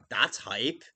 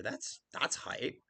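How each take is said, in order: First: Said in the usual way. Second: Slow breathy whisper, much softer; slow whispered That's hype. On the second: Shown as a demonstration. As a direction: hush it like a secret cheer.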